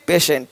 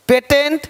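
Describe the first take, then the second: First: "पेशेंट" as pay-shent, low and falling; "पेशेंट" dropped lower, sh in the middle. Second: "पेटेंट" as pay-tent, higher; "पेटेंट" misread with t for sh; wrong t sound. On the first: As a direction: say "पेशेंट" with a soft sh. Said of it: "तो श". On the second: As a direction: say "पेटेंट" with a hard middle t. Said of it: "पेटेंट नहीं". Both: Shown as a demonstration.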